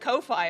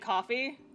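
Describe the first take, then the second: First: The name is not said like coffee. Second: The name is said like coffee. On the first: This is the way the creators intend. "it's actually pronounced Ko-Fi" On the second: This is the everyday word for the drink. "If you just say coffee"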